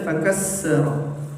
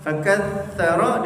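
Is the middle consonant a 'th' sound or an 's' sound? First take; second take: s; th. First: The middle consonant is an 's' sound. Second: The middle consonant is a 'th' sound. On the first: The speaker calls it wrong. "dirubahnya jadi huruf sin" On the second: The speaker calls it right. "Harusnya huruf sa"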